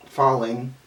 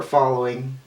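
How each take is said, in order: First: Said in the usual way. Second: "falling" slipped into "fallowing", with an extra oh before -ing; misspoken falling. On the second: Real, not acted. Reader tripping over the tower card's meaning, "falling" misspoken as "fallowing". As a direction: stumble on "falling", saying it as "fallowing". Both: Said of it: "not speaking right".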